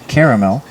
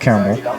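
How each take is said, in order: First: It is said fully with three syllables. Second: It is said shortened to two syllables. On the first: "the proper pronunciation is caramel because that's how it's spelled" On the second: "caramel is said in brevity"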